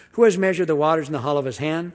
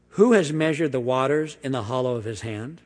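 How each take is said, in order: First: "Who has measured the waters" read fast and firm, louder; fast, emphatic reading of "Who has measured"; as a statement, quickly. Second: Rising question tune on "Who has measured", ending up on "hand". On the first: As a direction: declare it rather than ask it. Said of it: "We need to say it as a statement". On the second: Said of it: "I said it as a question". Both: Shown as a demonstration.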